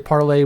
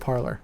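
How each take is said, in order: First: The word is pronounced the French way. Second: The word is pronounced the English way. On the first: "We don't have to say parlay" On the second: "we can say parlor"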